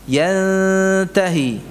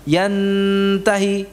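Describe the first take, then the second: First: The n is hidden and nasal, tongue not touching. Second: The n is fully released against the teeth. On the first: The speaker calls it right. "ujung lidahnya tidak sampai menempel" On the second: The speaker calls it wrong. "Yantahi tidak"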